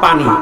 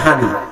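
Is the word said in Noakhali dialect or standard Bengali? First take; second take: standard Bengali; Noakhali dialect. First: It is said in standard Bengali. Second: It is said in Noakhali dialect.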